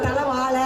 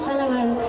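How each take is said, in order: First: The final consonant is a plain l sound. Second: The final consonant is the curled retroflex zh. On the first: The speaker calls it wrong. "தமிழ்நாட்டில் உள்ளவங்க தலை வாழ சொல்ல சொல்லுங்க வராது" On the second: The speaker calls it right. "தல வாழன்னு சொன்னாங்க. அதுவே சந்தோஷமா இருந்துச்சு"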